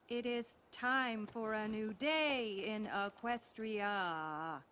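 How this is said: It is said in a flat, wooden way.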